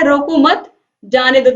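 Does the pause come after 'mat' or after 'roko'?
after mat. There is a pause right after 'mat'. Do not stop the person; let them go.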